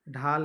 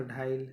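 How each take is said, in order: First: Said in the usual way. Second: "ढाइल" with an i glide before the l; Nagpuri epenthesis. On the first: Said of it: "है तो ढाइल". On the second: Shown as a demonstration. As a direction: say dhaa-il for "ढाइल". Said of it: "अपनी ही ती". ("ढाइल" में ल से पहले इ जोड़ें)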